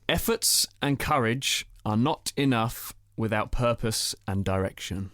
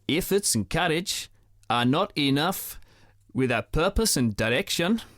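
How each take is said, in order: First: It is said in the speaker's normal accent. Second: It is said in a South African accent. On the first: "I'm going to read out a statement in my normal accent" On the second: "You've got it, Amy"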